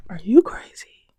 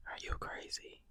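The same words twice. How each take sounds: First: Loud, disbelieving outburst; incredulous. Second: Soft incredulous whisper. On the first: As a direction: call it out like they've lost their mind. Incredulous repeat to viewers. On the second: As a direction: drop to a whisper, still in disbelief. Same question repeated, dropped. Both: Real, not acted.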